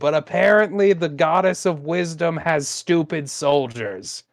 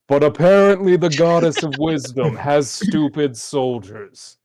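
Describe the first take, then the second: First: It is said in the speaker's normal voice. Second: It is said in Inquiry's character voice.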